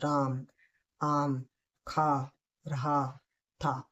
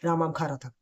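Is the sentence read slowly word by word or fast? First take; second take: slowly; fast. First: Each word is said slowly and separately. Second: The words are run together at fast speed. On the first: "ये मैंने second speed में पढ़ा।" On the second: "अब जो तीसरा speed है वो fast में पढ़ना है।"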